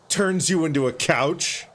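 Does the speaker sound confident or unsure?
confident. It is said firmly, like a confident statement.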